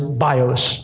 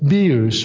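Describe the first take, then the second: First: The word has an English-style pronunciation. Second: The word has its original Greek pronunciation.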